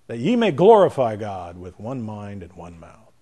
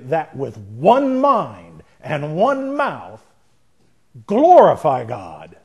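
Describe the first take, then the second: First: The voice is soft and gentle. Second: The voice is forceful and intense.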